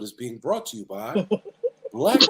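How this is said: It is said in a deep, polished announcer voice.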